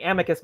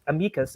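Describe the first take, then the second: First: Amicus said AM-uh-kus; first-syllable stress. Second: Amicus said uh-MEE-kus; second-syllable stress. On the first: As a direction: stress the opening of Amicus, with a short a. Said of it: "I was saying Amicus myself". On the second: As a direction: Amicus with a long ee in the middle. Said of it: "and it's a, it's Amicus". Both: Shown as a demonstration.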